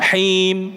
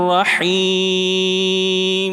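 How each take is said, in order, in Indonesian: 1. Huruf m terakhir dipotong mendadak. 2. Huruf m terakhir ditahan dengan panjang sedang. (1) "Ndak him. Ini syiddah"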